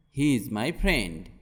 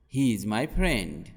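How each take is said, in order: Both takes have the same delivery.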